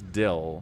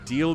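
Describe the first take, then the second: First: Said in a Utah accent, vowel flattened. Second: Said in a neutral American accent.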